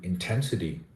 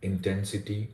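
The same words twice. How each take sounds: First: The stress falls on the second syllable. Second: All syllables carry equal stress. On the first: The speaker calls it right. "stressed on the second syllable ten" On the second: The speaker calls it wrong. "uniform stress on all the syllables"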